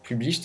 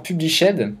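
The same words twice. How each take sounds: First: "published" in two syllables, ending "-isht"; softer corrected "published", with the final e silent; self-corrected pronunciation. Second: "published" with a French accent, ending in a full "-shèd"; French-accented "published" with the silent e sounded; mispronounced English word. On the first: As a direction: say "published" as PUB-lisht, French accent. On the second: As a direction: say "published" as three syllables, pub-li-SHED. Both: Real, not acted. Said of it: "excusez-moi pour mon accent".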